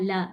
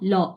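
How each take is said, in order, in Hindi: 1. स्वर 'la' जैसा चमकीला और खुला है। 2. स्वर 'law' जैसा गहरा और गोल है। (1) "ये वाली साउंड नहीं" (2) "एल ए डब्ल्यू वाला लॉ"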